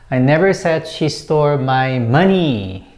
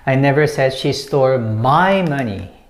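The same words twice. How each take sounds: First: The word money carries the stress. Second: The word my carries the stress. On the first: She took something other than money. "I didn't say that it was money" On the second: She took someone else's money. "when you put emphasis on my"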